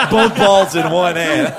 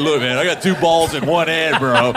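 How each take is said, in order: First: Louder, higher, drawn-out child imitation; imitated little kid. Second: Lightly voiced bro showing off; bragging dude. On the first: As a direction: repeat it slowly as a proud small boy. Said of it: "you give him a New Jersey accent". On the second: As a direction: boast like a dude to his buddy. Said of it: "hanging out with a dude who goes".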